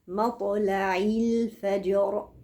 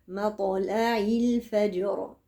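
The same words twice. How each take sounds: No difference in how they are said.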